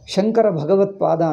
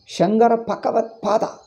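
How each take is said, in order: First: All consonants keep their usual voicing. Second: The voiced B and G become P and K. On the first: The speaker calls it right. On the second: The speaker calls it wrong.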